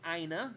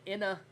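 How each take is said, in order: First: The first vowel sounds long, as in 'eye'. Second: The first vowel sounds short, as in 'in'. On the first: The speaker calls it right. "it's actually Ina" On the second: The speaker calls it wrong. "it looks like I said Inna"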